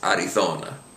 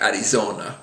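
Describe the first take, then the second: First: The z is pronounced the Spain way. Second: The z is pronounced like an English z. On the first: The speaker calls it right. "or the Spanish version" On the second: The speaker calls it wrong. "slip in a Z sound, an English Z sound"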